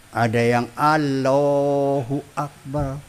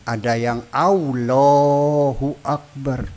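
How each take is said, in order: Both takes have the same delivery.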